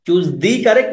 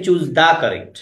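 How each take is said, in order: First: "the" in "choose the correct" stretched to "dee". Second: "the" in "choose the correct" said as "da". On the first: Teacher quizzes students on the article, "the" as "dee". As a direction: give "the" a long "ee" vowel. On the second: Teacher offers students the other option, "the" as "da". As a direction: give "the" an open "ah" vowel. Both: Shown as a demonstration. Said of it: "দা নাকি দি".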